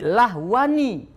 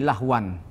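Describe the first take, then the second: First: The word ends with an added 'i' vowel. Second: The word ends with a plain 'an' sound. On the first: The tanwin is voweled because a silent letter follows. "dihidupkan dengan kasroh" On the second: This is the original tanwin form. "Asalnya begini"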